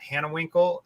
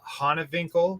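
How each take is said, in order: First: The name is pronounced with English-style sounds. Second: The name is pronounced with German-style sounds. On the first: This is how most people say the name. "a lot of people they they just pronounce it uh" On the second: This is the name's original German form. "then I learned that it's it's uh, ... because it's German"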